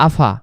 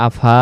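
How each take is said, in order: First: আফা short, the alif left silent. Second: আফা with the alif drawn out long, ফা stretched; wrong long alif. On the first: Teacher showing the right reading, আফা with a short ফা. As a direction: clip ফা in আফা, no stretch. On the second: Teacher showing the wrong reading, ফা held long in আফা. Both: Shown as a demonstration. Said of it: "এটা silent রাখতে হবে".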